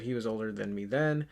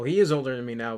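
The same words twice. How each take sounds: First: WAS stressed against the earlier IS. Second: IS stressed louder to correct himself. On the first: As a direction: lean on WAS to mark the contrast. Contrasts then with now. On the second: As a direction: punch the word IS as a correction. Corrects "was" to "is. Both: Real, not acted.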